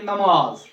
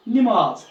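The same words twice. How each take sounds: First: नमाज with a first, na-maaz; correct pronunciation. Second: नमाज said loudly with i first, ni-maaz; wrong pronunciation. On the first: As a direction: open the first syllable of नमाज to a. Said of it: "हम उसको पढ़ेंगे". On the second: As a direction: give नमाज a short i in its first syllable. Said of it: "सही लफ्ज़ नहीं है". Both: Shown as a demonstration.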